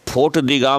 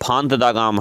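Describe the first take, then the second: First: The first word is said with an 'rt' ending. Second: The first word is said with a nasal ending. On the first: The speaker calls it wrong. "फोर्ट दी गाम नहीं है" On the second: The speaker calls it right. "फांत दा गाम है"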